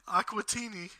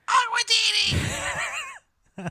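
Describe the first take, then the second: First: It is said calmly, at normal volume. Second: It is screamed loudly and excitedly.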